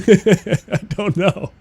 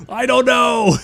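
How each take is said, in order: First: Slow, high "I don't know" through laughter; laughing. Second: High, loud "I don't know!" with "don't" hit hard; exasperated shout. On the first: Streamer cracking up at her own creaming soda rant, laughing slowly. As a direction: dissolve into giggles on "I don't know". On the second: Streamer baffled by the name creaming soda, high exasperated yell. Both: Real, not acted.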